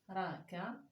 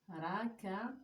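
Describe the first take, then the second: No difference in how they are said.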